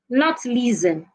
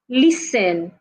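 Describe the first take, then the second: First: The T sound is pronounced. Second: The T sound is silent. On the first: The speaker calls it wrong. "Some people will say listen. It's not listen" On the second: The speaker calls it right. "Make sure you're not articulating the T sound"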